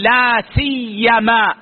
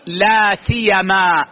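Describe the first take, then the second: First: "لا سيما" with the yā' doubled, si-yy-ma; "لا سيّما" spoken slowly with a stressed double yā'; with shadda. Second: "لا سيما" with a single light yā', si-ya-ma; "لا سيَما" spoken slowly without the doubling. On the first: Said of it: "التشديد". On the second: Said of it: "والتخفيف". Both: Shown as a demonstration.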